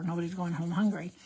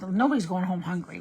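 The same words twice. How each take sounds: First: Said in the usual way. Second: "Nobody's going home hungry" said louder, with weight on "Nobody's"; punched "Nobody's" in "Nobody's going home hungry"; emphatic. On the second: Shown as a demonstration. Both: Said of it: "Let's go with that for sure".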